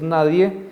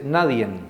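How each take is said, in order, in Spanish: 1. La palabra termina en una vocal simple. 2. La palabra termina con un sonido de n agregado. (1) "en vez de decir nadie" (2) "dice nadien ... Agregan una N al final de la palabra"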